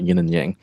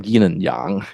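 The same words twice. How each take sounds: First: It is said with an English pronunciation. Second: It is said with a Mandarin pronunciation.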